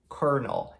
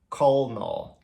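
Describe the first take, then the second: First: The middle of the word sounds like R. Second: The middle of the word sounds like L. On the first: The speaker calls it right. "a gente pronuncia como se fosse um R" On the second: The speaker calls it wrong. "e não colonel"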